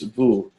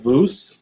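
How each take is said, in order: First: The word ends without any S sound. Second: The word ends with an audible S sound. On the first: The speaker calls it right. "So there's no S" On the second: The speaker calls it wrong. "It's not vous"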